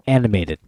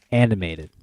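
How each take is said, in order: Both takes have the same delivery.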